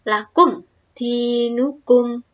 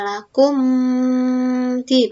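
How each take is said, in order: First: The m sound is pronounced clearly before the next word. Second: The m sound is blurred into the next word. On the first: The speaker calls it right. "Tapi jelas" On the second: The speaker calls it wrong. "Bukan dibaca lakum di, bukan seperti itu ya"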